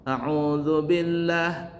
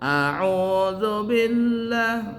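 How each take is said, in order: First: The first vowel is short. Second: The first vowel is drawn out long. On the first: The speaker calls it right. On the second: The speaker calls it wrong.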